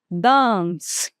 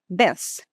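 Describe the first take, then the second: First: British accent with a long vowel. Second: American accent with a short, quick vowel. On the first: "Observem como o britânico vai falar a mesma palavra" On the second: "Como é que o americano vai falar? ... É mais rápida, né? Não é uma vogal longa"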